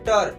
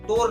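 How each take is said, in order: First: The vowel is a short 'a' sound. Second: The vowel is a full 'o' sound. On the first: The speaker calls it right. "क्या बोलेंगे? टर" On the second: The speaker calls it wrong. "तोर नहीं"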